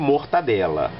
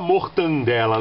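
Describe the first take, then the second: First: No n sound comes before the d. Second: An extra n sound comes before the d. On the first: The speaker calls it right. "o correto" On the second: The speaker calls it wrong. "Pior é quando fala mortandela"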